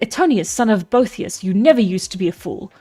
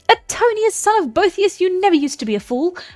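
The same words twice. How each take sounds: First: It is read in the reader's plain voice. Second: It is read in a character voice, different pitch.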